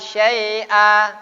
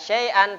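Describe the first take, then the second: First: The word ends on a vowel without n. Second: The word ends with an n sound. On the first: The speaker calls it right. "tapi syai'a" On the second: The speaker calls it wrong. "Tidak syai'an"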